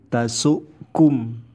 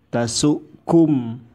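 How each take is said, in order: The two takes are said the same way.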